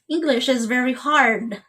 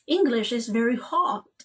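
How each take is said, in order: First: The R in hard is pronounced. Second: The R in hard is silent. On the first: "In English, we say hard" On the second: "but in British English"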